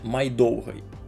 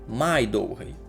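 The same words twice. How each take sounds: First: Only the word довгий carries normal stress. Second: The particle май is strongly emphasized. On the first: It means longer. "ми чуємо нормальний наголос на перший склад слова «довгий»" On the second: It means the longest. "ми робимо такий акцент іще на частці «май»"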